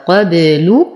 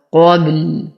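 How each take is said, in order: First: "قبل" ending in a full u on the lam, as when reading on; ضم اللام وصلا. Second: "قبل" stopped on a vowelless lam, heavy qaf, light ba; وقف بالسكون. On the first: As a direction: finish "قبل" with a rounded "lu". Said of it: "ولو وصلنا لكانت اللام مضمومة". ("قبل" بضمة تامة على اللام) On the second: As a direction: end "قبل" on a bare held l. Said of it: "نقف على اللام بالسكون العارض". ("قبل" بالوقف على لام ساكنة) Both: Shown as a demonstration.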